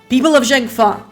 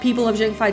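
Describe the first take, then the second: First: It is said imitating a certain politician's voice. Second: It is said without the politician impression.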